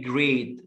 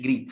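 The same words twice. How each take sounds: First: "جريت" as "grayt", long a; correct long a. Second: "جريت" as "greet"; wrong pronunciation. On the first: Teacher correcting great, long-a "جريت". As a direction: say "جريت" with an "ay" vowel. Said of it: "بقول جريت مش جريت". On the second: Teacher showing the mistake, long-e "جريت". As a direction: say "جريت" with an "ee" vowel. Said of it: "مش جريت". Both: Shown as a demonstration.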